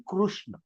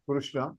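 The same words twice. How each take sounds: First: Krishna said the Sanskrit way, kru with a rounded u; Krishna with the Sanskrit ru vowel. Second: Krishna said the Hindi way, ruʂna with a retroflex sh; Krishna with the Hindi ru sound; Hindi-style Krishna. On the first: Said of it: "It has to be Krishna". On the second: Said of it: "If I say Krishna, it becomes a slang". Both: Shown as a demonstration.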